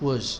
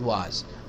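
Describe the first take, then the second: First: The vowel is weak and reduced, mouth barely open. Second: The vowel is full, with the mouth wide open. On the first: The speaker calls it right. "Was, not was" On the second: The speaker calls it wrong. "not was. Don't open your mouth wide open"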